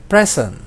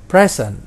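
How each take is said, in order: Both takes have the same delivery.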